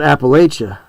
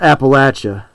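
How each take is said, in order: First: It is said with the northern regional pronunciation. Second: It is said with the southern regional pronunciation. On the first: The speaker is from the northern region. "If you go more northern, they call it" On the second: The speaker is from the southern region. "If you go more more southern, they call it"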